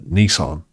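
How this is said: It is said with an American pronunciation. The speaker calls it right. "They would say it a bit more like Americans say"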